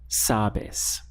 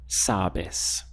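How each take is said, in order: The two takes are said the same way.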